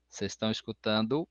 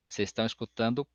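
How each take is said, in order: Both takes have the same delivery.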